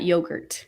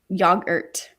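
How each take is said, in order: First: It is said with an American-style pronunciation. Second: It is said with a British-style pronunciation. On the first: The speaker calls it wrong. "not yogurt" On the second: The speaker calls it right. "we say yo- yogurt, yogurt"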